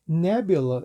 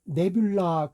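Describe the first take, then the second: First: The final vowel is a weak schwa. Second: The final vowel is said fully. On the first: The speaker calls it right. "이렇게 처리돼야 맞습니다" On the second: The speaker calls it wrong. "그러잖아요"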